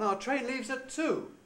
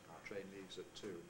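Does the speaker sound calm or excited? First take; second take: excited; calm. First: It is said in an excited, lively way. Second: It is said in a calm, detached way. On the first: "The excited one" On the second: "the calm one"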